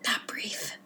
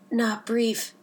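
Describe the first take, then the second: First: The phrase is whispered very quietly. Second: The phrase is spoken in a normal voice.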